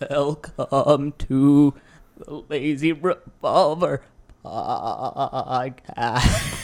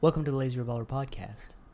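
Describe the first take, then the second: First: It is said in a spooky gravedigger voice. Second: It is said in the speaker's normal voice.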